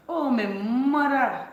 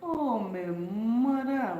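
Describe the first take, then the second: First: Loud, slow, drawn-out dialect "Oh, my mother"; Caribbean dialect, OH stretched long and high; dialect exclamation. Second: Very slow, drawn-out dialect "Oh, my mother"; Caribbean dialect, OH stretched with a falling tune; dialect exclamation. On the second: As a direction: draw out "Oh, my mother" like an island aunt. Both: Shown as a demonstration. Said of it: "Oh, my mother is one for real".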